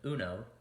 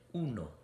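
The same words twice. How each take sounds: First: It is said with an English-speaker accent. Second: It is said with a native Spanish accent. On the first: The speaker calls it wrong. "my gringo pronunciation" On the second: The speaker calls it right. "my authentic sounding pronunciation"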